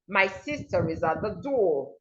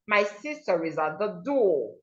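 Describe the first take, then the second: First: The R joins smoothly into the following vowel. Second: The R joins smoothly into the following vowel.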